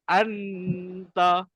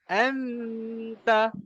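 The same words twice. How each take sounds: First: The nasal is made with the tongue on the palate. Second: The nasal is made with the tongue at the teeth. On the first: The speaker calls it wrong. "Dia tak boleh anta" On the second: The speaker calls it right. "Tapi dia anta. Lidah tu mesti dekat makras huruf seterusnya"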